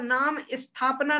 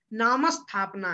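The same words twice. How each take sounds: First: नाम स्थापना said as "नामि स्थापना" with an i after नाम; wrong take with an extra i sound; wrong pronunciation. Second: नाम स्थापना with only the half स, no added i; correct pronunciation. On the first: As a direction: show the error: an i slipped in before स्थापना. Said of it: "नाम स्थापना नहीं है". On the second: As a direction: say नामस्थापना joined and clean. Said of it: "आधा सा बोलना है". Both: Shown as a demonstration.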